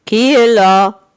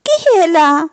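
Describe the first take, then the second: First: Big, slow, louder voice; a heavy voice that should not be grandma's; wolf's gruff voice. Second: Put-on higher, louder call of an old lady through the door; grandmother asking. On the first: Wolf in grandmother's bed asking who knocks, gruff and slow. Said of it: "Comme le loup avait une grosse voix". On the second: Grandmother calling through the door, asking who it is. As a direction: call out to ask who knocks. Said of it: "se demande grand-mère". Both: A narrator's reading.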